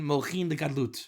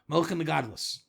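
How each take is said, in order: First: It is said carefully with a final t. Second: It is said with an Ashkenazi-style s ending. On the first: "As they say in proper pronunciation" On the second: "As they say in normative Judaism"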